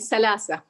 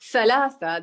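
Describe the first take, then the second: First: The consonants are said as s sounds. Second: The consonants are said as th sounds. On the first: This is how speakers in the Hijaz say it. "the th is pronounced as sa or ta. So can, they could say salasa" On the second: This is how speakers in Najd say it. "instead of saying thalatha"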